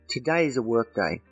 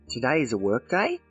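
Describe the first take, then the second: First: The voice stays level at the end. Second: The voice rises at the end.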